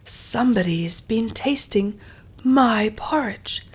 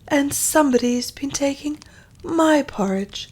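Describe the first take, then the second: First: It is said in a deep, big voice. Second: It is said in a medium-pitched voice.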